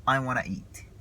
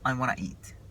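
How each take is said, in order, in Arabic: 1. تُختصر want to وتُدمج لتصبح wanna. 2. تُختصر want to وتُدمج لتصبح wanna.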